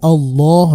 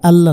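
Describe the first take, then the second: First: The L sound is heavy and thick. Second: The L sound is light and thin. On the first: The speaker calls it right. "এখানে লাম শব্দটা মোটা হবে, আল্লাহ হবে" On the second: The speaker calls it wrong. "আল্লাহ না"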